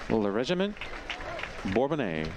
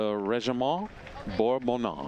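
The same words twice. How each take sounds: First: The name sounds anglicized, with little French accent. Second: The name sounds more authentically French. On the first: The speaker calls it wrong. "I think you can do that a little bit more authentically" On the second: The speaker calls it right. "There it is"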